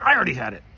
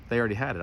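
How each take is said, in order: First: "I" punched high and loud; indignant retort. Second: Said in the usual way. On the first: Retold or imitated. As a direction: throw it back, hitting "I" hard. Throws their excuse back at them.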